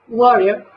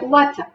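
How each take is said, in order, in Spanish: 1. Se dice con acento americano. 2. Se dice con acento británico. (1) "que diría un hablante norteamericano" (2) "Un británico diría water"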